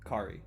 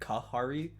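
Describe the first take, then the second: First: The name is said without an extra middle syllable. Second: The name is said with an extra 'ha' syllable. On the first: The speaker calls it right. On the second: The speaker calls it wrong. "I've been saying it Kahari, and it's been fucking me up"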